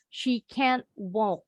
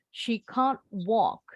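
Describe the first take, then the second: First: It is said in an American accent. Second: It is said in a British accent. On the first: "The Americans" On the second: "kalau orang Inggris bilangnya can't"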